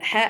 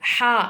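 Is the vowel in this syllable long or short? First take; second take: short; long. First: The vowel is cut short. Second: The vowel is drawn out long. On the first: The speaker calls it wrong. "ஹ அப்படின்னு சொல்லக்கூடாது" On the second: The speaker calls it right. "ஹா அப்படின்னு நம்ம சொல்லணும்... ஒரு அலிஃபுக்கு நம்ம நீடணும்"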